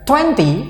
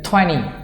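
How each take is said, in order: First: The middle t sound is clearly pronounced. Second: The middle t sound is dropped. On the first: "kita nggak akan baca" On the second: "menghapus suara T"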